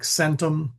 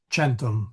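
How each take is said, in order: First: The word begins with an s sound. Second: The word begins with a ch sound. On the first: "a C is never a um, like an S sound" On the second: "or it is soft, centum, like a C H"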